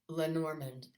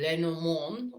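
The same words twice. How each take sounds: First: It is said with a plain American accent. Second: It is said with a French accent.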